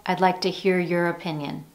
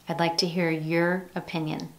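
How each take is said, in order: The two takes are said the same way.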